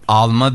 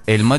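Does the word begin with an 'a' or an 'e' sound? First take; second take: a; e. First: The word begins with an 'a' vowel. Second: The word begins with an 'e' vowel. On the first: This is how the aliens say it. "Alma diyor mesela" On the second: This is how we say it. "Mesela biz elma diyoruz"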